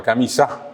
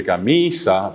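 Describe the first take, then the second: First: Camisa said camiSÁ, stressed at the end; acento final. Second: Camisa with a long stressed MI; acento llano. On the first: (camisa con acento final: camisá) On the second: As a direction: stretch the middle syllable of camisa. (camisa con acento en MI) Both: Shown as a demonstration. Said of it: "Siempre el acento final".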